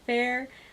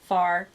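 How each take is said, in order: First: The name rhymes with the word fair. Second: The name rhymes with the word far. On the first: "I've heard it said fair" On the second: "pronounce it in a southern way"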